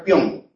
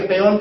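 First: PEÓN as PYON; careless peón. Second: PEÓN as pe-ON; peón with hiatus. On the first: Teacher comparing two forms, careless pyon. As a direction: glide E into O in PEÓN as one syllable. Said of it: "es una pronunciación descuidada". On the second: Teacher comparing two forms, careful pe-ON. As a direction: keep two syllables in PEÓN. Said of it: "tú puedes pronunciar peón". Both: Shown as a demonstration.

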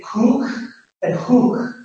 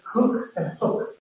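First: Cook and hook with long oo, as in food; long drawn oo in "cook" and "hook"; northern English vowel. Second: Cook and hook with short, lax oo, as in foot; softer, short-vowelled "cook" and "hook". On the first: Teacher showing northern accent, "cook and hook" with long oo. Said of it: "in the northern accent, oo is used". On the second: Teacher contrasting RP with northern, "cook and hook" with short oo. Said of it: "instead of". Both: Shown as a demonstration.

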